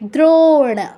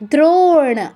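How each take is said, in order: First: The vowel after dr is a long o. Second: The same.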